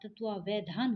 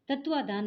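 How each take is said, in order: First: It is said as tatva-va-dhaan, with the 'va'. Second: It is said as tatva-dhaan, without the 'va'. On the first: The speaker calls it right. "तत्वावधान होगा" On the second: The speaker calls it wrong. "तत्वाधान नहीं होगा"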